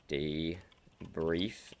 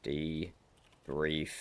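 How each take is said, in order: Both takes have the same delivery.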